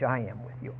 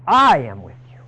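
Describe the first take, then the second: First: Hushed, tender I am with you; quiet reassurance; soft promise. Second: Louder, firm I am with you; loud promise. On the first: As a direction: say it gently, almost to yourself. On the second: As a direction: ring it out with conviction. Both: Shown as a demonstration. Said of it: "repeats the promise softly, then loudly".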